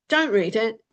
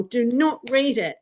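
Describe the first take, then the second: First: Said in the usual way. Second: "not" set apart and weighted, falling at the end; stress on not. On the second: Shown as a demonstration. Warning viewers off rabbit holes, stress on "not". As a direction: lean hard on "not". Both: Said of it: "the way I've dealt with it personally".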